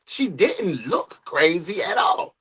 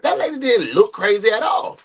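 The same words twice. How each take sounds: First: "She" stressed, whole line slowed and drawn out; slow emphatic stress. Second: Said in the usual way. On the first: Real, not acted. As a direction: lean on "She" and take every word slowly. Repeats the point with emphasis.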